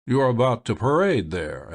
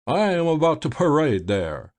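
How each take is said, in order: First: Said in the usual way. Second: "I am about to parade there" echoed higher in mock Godall accents; imitating Godall. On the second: A narrator's reading. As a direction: mimic the other man's way of saying "I am about to parade there". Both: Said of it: "imitating the accents of the other".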